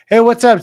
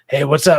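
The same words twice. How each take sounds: First: It is said loudly, close to yelling. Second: It is said in a quiet, soft voice. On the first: "that's me yelling" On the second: "my vocal cords are just they're just"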